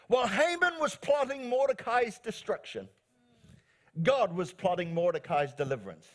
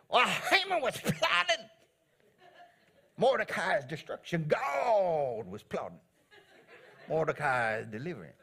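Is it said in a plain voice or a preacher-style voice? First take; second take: plain; preacher-style. First: It is said in the speaker's plain voice. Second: It is said like an American preacher.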